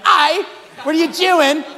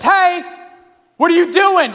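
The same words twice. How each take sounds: First: Put-on high, slow, loud piratical Aussie accent; pirate-like Aussie. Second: High, loud Aussie call-out; Aussie accent. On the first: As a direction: draw out a mock Aussie like a pirate. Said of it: "Aussies sound like pirates to me". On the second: Retold or imitated. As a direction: holler it like a mock Australian. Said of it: "he was an Aussie".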